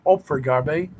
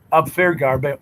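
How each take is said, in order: First: "Opfergarbe" said ohp-fer-gar-bay, rounded O start; corrected name. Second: "Abfargarbe" said ahb-far-gar-bay, hard first syllable; a first stumbling try at "Abfargarbe"; mangled name. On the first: Streamer correcting the viewer's German name, careful try. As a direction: fix it to "Opfergarbe", opening on a round O. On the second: Streamer fumbling a viewer's German name, mispronounced. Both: Shown as a demonstration.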